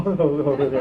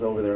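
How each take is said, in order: First: Imitated awkward chuckle through the words; laughing for no reason. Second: Said in the usual way. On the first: Man getting elevator directions, laughing for no reason. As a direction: laugh pointlessly while answering "over there". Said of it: "What the fuck am I laughing at?". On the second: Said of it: "And the guy goes".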